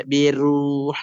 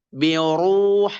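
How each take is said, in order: First: "biruh" with a thin r straight after clear i; "biruh" as the mistaken thin reading; wrong light ra. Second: "biruh" with a heavy, rounded r, like "bioruh"; thick ra. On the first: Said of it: "tidak dibaca biruh". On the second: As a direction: draw out "biruh" with a dark r. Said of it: "tetap ro dibaca tebal". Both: Shown as a demonstration.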